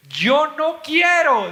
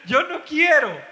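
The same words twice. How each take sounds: First: Mock whiny refusal. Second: "Yo no quiero" repetido entre risas, agudo; laughing mock refusal. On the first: Mocking the atheist's refusal. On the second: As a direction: burlarse riendo de "Yo no quiero". (imitación burlona, riéndose, de "Yo no quiero")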